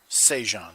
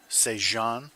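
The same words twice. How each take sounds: First: The stress is on the first syllable. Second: The stress is on the second syllable.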